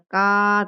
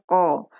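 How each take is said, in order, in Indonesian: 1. Dimulai dengan bunyi k yang depan dan ringan. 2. Dimulai dengan bunyi q yang dalam di belakang tenggorokan. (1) "bukan ka" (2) "tapi qa"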